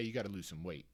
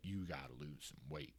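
First: It is said in a light, casual tone. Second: It is said in a grave, urgent tone. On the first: The weight is a mild concern. "You were at a number where they're telling you, hey" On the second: The weight is alarming to doctors. "their tone is different"

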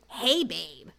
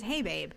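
First: It is said in a bratty, snippy tone. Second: It is said in a plain, neutral tone.

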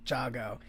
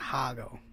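First: The name begins with a J sound. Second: The name begins with a breathy H sound. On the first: The speaker calls it right. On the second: The speaker calls it wrong.

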